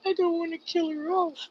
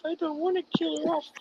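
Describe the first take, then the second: First: High, quiet pleading as if near tears; tearful plea. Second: High, soft and fast, rushing the plea again; hurried tearful plea. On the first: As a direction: plead higher and softer, a retold lament. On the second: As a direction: tumble out the plea, half-crying. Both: Retold or imitated. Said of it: "And I'm sitting there and I'm crying".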